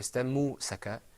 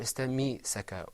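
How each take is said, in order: First: A u vowel follows the m sound. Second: An i vowel follows the m sound. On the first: "or istammu-saka" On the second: "or istammi-saka"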